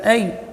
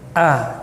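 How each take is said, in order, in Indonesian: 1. Vokalnya meluncur ke bunyi 'y'. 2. Vokalnya tetap murni dari tenggorokan. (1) "jadi a nya tidak boleh cenderung ke ya, bukan ay" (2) "tapi a, keluar dari pangkal tenggorokan"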